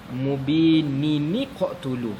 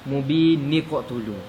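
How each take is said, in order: First: An added i sound links the two words. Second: The words join with no added vowel between them. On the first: The speaker calls it right. "bunyinya yang tepat ialah mubini niqtulu" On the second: The speaker calls it wrong. "orang selalu baca salah begini"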